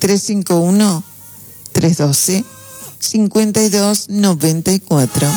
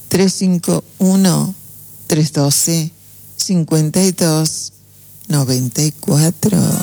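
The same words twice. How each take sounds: First: It is said fast. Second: It is said slowly.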